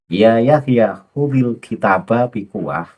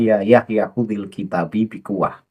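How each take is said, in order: First: The word kitab ends with an 'a' vowel. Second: The word kitab ends with an 'i' vowel. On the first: The speaker calls it right. "yang benar adalah" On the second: The speaker calls it wrong.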